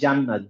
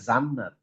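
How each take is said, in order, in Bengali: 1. শব্দটি j ধ্বনি দিয়ে শুরু হয়। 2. শব্দটি z ধ্বনি দিয়ে শুরু হয়। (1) "জিম দিয়ে" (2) "আমরা বলবো না"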